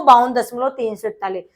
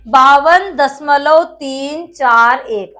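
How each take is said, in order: First: "तीन सौ इकतालीस" read as one whole number after the point; wrong reading. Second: "तीन चार एक" read slowly as separate digits after "दशमलव". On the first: Teacher showing students the common mistake, digits read joined as one number. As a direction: say "बावन दशमलव तीन सौ इकतालीस", the decimal part joined as three hundred forty-one. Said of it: "जबकि ऐसे नहीं पढ़ा जाता". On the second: Teacher showing students the right reading, slow and digit by digit. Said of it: "एक एक करके पढ़ेंगे". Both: Shown as a demonstration.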